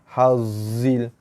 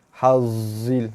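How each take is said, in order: First: The middle consonant is a buzzing z. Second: The middle consonant is a buzzing z.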